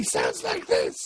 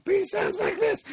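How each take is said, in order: First: Put-on low, slow old man voice. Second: High, light youthful voice; bright young voice, pitched up; young man voice. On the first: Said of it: "very old man who's doing this voice". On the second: Retold or imitated. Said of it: "but he looks young".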